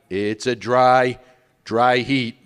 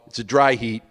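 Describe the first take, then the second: First: "dry, dry heat" drawn out slowly, weight on each "dry"; slow emphatic repeat. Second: Said in the usual way. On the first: Shown as a demonstration. Comic repeating the dry heat joke, slow and emphatic. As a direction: stretch "dry" twice to sell the punchline.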